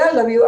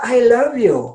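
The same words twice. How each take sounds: First: It is said quickly and offhandedly, without feeling. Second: It is said slowly and warmly, with feeling. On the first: It is said just to tick a box. The speaker calls it wrong. "like quickly, I love you. I said it. Oh, checklist" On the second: It is meant sincerely, with full attention. The speaker calls it right. "Say attention. You know, say, you know what?"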